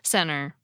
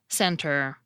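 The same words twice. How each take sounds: First: The T blends into a quick nasal flap. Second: The T is clearly pronounced, without a puff. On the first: "how I often pronounce it ... The T disappeared ... a nasal alveolar flap" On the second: "I pronounced it carefully just then using the unaspirated T allophone"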